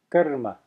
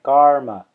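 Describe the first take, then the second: First: It has a short uh and tapped r. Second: It has a long ah and English r. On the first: The speaker calls it right. "a short uh, not a long ah, and it's a flip of the tongue ra" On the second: The speaker calls it wrong. "they will say a long ah, and they will also say an English r"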